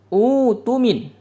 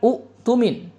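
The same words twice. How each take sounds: First: The first vowel is long with no glottal stop. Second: A glottal stop follows the short first vowel. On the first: The speaker calls it right. "Jadi diibdal dia" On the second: The speaker calls it wrong. "bukan utumin"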